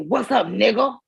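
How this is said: It is said in a cold, hostile tone.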